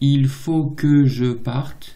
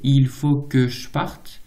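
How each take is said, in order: First: Every E sound is pronounced in full. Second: One of the E sounds is dropped.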